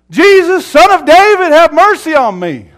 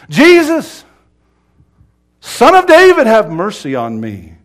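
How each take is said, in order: First: Very high, very loud sustained cry; screamed plea. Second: Full-throated high scream that falls at the end; louder screamed plea. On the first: Blind beggar calling to Jesus passing by, screamed plea. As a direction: scream for mercy over a crowd, high throughout. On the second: Blind beggar refusing to be hushed, full scream. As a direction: scream the name, pause, then scream on and drop away. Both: Retold or imitated. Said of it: "he screamed all the louder".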